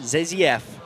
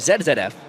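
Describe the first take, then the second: First: The letter Z is pronounced zee. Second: The letter Z is pronounced zed.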